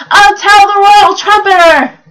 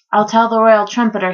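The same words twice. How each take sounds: First: Loud, high full-voiced shout. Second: Said in the usual way. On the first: A narrator's reading. Reader redoing Bartholomew's line about the royal trumpeter, shouted. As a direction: shout it out like a storybook hero. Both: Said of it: "he shouted".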